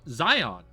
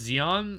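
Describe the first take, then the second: First: The first vowel is the letter-I sound. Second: The first vowel is not the letter-I sound. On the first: "Like an I?" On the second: "This is how I pronounce it"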